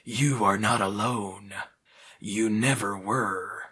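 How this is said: It is read in Reaper's voice.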